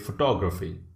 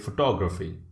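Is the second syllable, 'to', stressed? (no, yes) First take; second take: yes; yes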